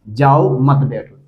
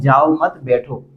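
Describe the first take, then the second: First: There is a pause after the first word. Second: There is a pause after the second word. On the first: The listener is told to leave and not sit. "इसका अर्थ हो गया कि आप जाइए, आप चले जाइए, यहाँ पे मत बैठिए" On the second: The listener is told not to leave but to sit. "यानी अभी आपको जाना नहीं है, बैठना है"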